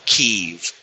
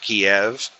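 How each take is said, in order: First: The city name is said in the newer form. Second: The city name is said in the older form. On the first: This is the name the city now officially uses. The speaker calls it right. "I think the proper pronunciation of it is now Kyiv" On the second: This is the name the other country still uses. The speaker calls it wrong. "you are constantly hearing people pronounce it as Kiev"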